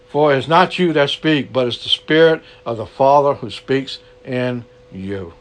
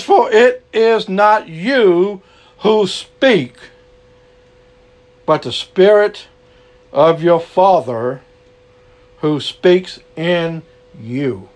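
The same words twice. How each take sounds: First: Said in the usual way. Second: Slow solemn scripture read. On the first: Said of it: "You get that?". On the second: Shown as a demonstration. Preacher reading Matthew aloud, slow and solemn. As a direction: read the verse slowly, weighing each word. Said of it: "And it says".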